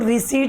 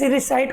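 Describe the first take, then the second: First: The word ends with an 'eet' sound. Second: The word ends with an 'ite' sound. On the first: The speaker calls it wrong. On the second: The speaker calls it right.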